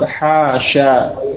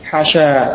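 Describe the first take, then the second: First: Both vowels in the word are long. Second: The vowel after the h sound is short. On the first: "yang afal semuanya panjang" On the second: "pendek pada haknya"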